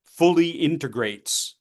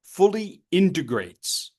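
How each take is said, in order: First: Slow, stress on fully; fully integrates, slowly, fully stressed; stressed phrase. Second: Slow, heavy stress on Fully; Fully integrates, slow, Fully stressed; stressed phrase. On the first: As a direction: lean on fully. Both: Shown as a demonstration.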